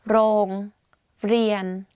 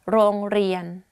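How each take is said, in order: First: The word is said slowly and carefully. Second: The word is said quickly.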